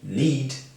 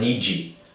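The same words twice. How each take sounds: First: It ends cleanly on the D sound. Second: It ends with an added vowel, Brazilian-style.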